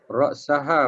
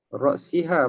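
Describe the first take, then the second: First: The vowel after the r-sound is a. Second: The vowel after the r-sound is i. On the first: "boleh baca bari atas" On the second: "boleh baca bari bawah"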